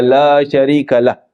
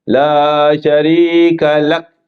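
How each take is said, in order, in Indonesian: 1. Frasa itu diakhiri dengan bunyi h. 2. Frasa itu diakhiri dengan bunyi k. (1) "Lah macam L A H, salah lah" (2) "yang betulnya lak"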